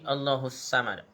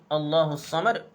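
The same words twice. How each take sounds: First: The s sound is a light plain s. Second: The s sound is heavy and emphatic. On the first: The speaker calls it wrong. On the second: The speaker calls it right.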